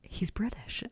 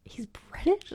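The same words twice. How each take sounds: First: Quiet falling whisper of realisation; mock flat shock; mild flat surprise. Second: High rising whispered question; imitating her own shock; shocked disbelief. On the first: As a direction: let it dawn on you, hushed. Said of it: "And then I looked him up and I went". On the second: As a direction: squeak it out in disbelief. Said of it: "I looked him up and I literally went".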